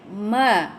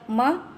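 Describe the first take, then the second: First: The vowel is held for two beats. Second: The vowel is cut very short. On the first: The speaker calls it right. "macam tu ya" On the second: The speaker calls it wrong. "pendek sangat"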